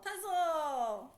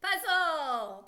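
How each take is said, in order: First: Said in the usual way. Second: Loud, emphatic "Puzzle"; proud answer. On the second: Shown as a demonstration. Teacher revealing the word "Puzzle" to a student, loud and emphatic. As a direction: announce "Puzzle" as the triumphant answer. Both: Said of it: "What is it?".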